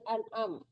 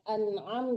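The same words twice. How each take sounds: First: The middle consonant is a plain glottal stop. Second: The middle consonant is a deep throaty ain. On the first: The speaker calls it wrong. "jangan an'am" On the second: The speaker calls it right. "Jadi kayak an'am"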